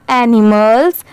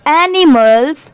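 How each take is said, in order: First: Said in the usual way. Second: Drawn out very slowly, word by word; slow spelled-out word. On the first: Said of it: "तो पूरा क्या हो जाएगा?". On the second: Shown as a demonstration. Teacher sounding out animals for students, very slow. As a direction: stretch it slowly for the class. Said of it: "अब जैसे यहाँ पर भी एस है तो पूरा क्या हो जाएगा?".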